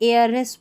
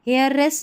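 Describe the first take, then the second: First: The word begins with a vowel, no h. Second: The word begins with an h sound. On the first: The speaker calls it right. "एयरलेस पढ़ेंगे" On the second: The speaker calls it wrong. "हेयर हेयरलेस नहीं"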